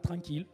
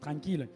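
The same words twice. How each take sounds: First: It is said in his plain, neutral accent. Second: It is said with a southern Toulouse accent.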